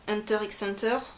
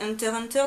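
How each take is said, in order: First: The middle letter x is pronounced aloud. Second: The middle letter x is left silent. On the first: The speaker calls it wrong. "on ne dise pas Hunter x Hunter" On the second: The speaker calls it right. "c'est Hunter Hunter dans la vraie prononciation"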